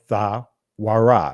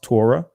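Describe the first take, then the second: First: It begins with 'th' and has a 'w' inside. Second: It begins with a plain 't' sound. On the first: This is another ancient Hebrew pronunciation. "the ancient Hebrew will be Tha Ra or Tha Wara" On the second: This is the modern Israeli pronunciation. "in the Israeli language, this will be pronounced Torah"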